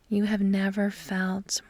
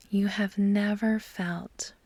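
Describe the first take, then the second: No difference in how they are said.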